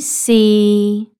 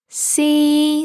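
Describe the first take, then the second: First: The pitch stays mid and level. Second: The pitch stays high and level. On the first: "A flat tone in the middle of your voice range" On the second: "all three together"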